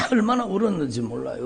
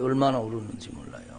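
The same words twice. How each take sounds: First: Said in the usual way. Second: 얼마나 울었는지 몰라요 repeated much softer and quicker; soft echo. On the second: Shown as a demonstration. Pastor echoing his own weeping line, softer and quicker. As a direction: drop to a hushed aside.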